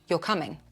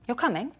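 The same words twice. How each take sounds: First: The voice falls at the end. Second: The voice rises at the end. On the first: It states a fact. "the first one is telling" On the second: It checks whether something is true. "The second one is checking"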